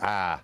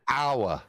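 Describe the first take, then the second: First: The vowel is flattened into a single 'ah'. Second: The vowel is a full glided 'ow-er' sound. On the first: "But it's ah, because like everything's lazy regionally" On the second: "It should be hour. Hour would be the correct"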